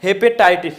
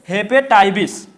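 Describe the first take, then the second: First: The word is said plainly, without a 'vish' sound. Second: The word is said bringing out a 'vish' sound. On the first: "आप लोग क्या पढ़े हैं" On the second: "अब नए तरीके से क्या पढ़ेंगे ... विष का भी उच्चारण निकलेगा"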